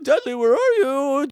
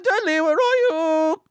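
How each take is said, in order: First: It is said in the speaker's plain accent. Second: It is said in a put-on New Zealand accent.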